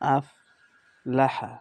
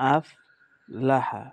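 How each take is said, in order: Both takes have the same delivery.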